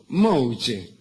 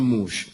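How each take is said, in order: First: It ends with a vowel after the sh sound. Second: It ends on the sh sound with no vowel. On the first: "como el jugador de Boca" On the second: "pronunciarlo mal, decían mush"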